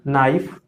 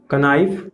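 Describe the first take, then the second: First: नाइफ starting directly on n; correct silent K. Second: कनाइफ with k and short vowel before n; wrong sounded K. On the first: Teacher reads out knife correctly, k silent. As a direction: say नाइफ with no k sound. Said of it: "correct pronunciation इसका". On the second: Teacher lists wrong readings, knife with k sounded. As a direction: add a k syllable opening कनाइफ. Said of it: "ये wrong है". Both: Shown as a demonstration.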